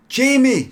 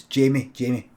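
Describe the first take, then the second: First: High, loud call of the name; shouting. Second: Said in the usual way. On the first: Acted. Craig shouts for the boy at the window, calling out loudly. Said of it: "shouted Craig".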